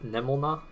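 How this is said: The name is pronounced with Japanese-style sounds. "if it was Japanese pronunciation"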